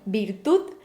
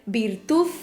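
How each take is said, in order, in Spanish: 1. La palabra termina en sonido d suave. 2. La palabra termina en sonido th.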